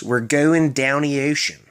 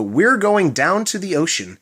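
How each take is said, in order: First: "down the ocean" as "downy ocean", slowly; Maryland slur. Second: Said in the usual way. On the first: Shown as a demonstration. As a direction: drop the TH, blend "down the" into "downy". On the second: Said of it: "the T H in the completely disappears".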